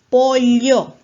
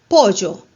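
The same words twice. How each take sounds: First: The ll is a lateral sound, Peruvian highland style. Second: The ll is said the Peruvian jungle way. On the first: "Sierra, ... con la doble L"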